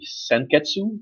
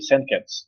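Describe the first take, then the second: First: The word ends with a faint final vowel. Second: The word ends on the consonant, no vowel. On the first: "sometimes Ryuko and Satsuki uh, say Senketsu" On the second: "they seem to forget the U"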